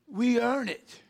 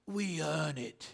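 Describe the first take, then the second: First: Said in the usual way. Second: Put-on low, soft, slow English actor's accent; John Houseman's English accent. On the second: Pastor adapting an ad slogan, low English accent. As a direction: echo the old English spokesman, low and drawn out. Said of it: "he would say in that English accent".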